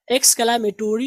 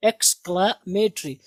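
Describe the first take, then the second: First: "Exclamatory" said with a full "-tory" ending, ek-skla-ma-TO-ri; the wrong way, "Exclamatory" pronouncing the o in -tory; wrong pronunciation. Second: "exclamatory" as eks-kla-ME-tri, no o in -tory, said very slowly; drawn-out model "exclamatory" ending in "-tri"; correct pronunciation. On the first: Teacher shows students the mistaken "Exclamatory" with "-to-ri". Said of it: "exclamatory नहीं है". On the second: Teacher slowly models the right "exclamatory" ending "-tri" for students. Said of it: "ये है exclamatory". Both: Shown as a demonstration.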